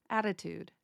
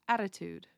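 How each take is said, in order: No difference in how they are said.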